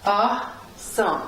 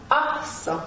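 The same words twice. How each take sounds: First: "Awesome" split in two with a long gap; teacher's slow, separated "Awesome"; syllable by syllable. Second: "Awesome" with the A high, then falling; joined-up "Awesome", stressed high on the first syllable; upstress on first syllable. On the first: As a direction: sound out "Awesome" slowly as Awe, some. Teacher sounds out the word. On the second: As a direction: lift the A of "Awesome", drop the ending. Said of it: "would go on the A". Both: Shown as a demonstration.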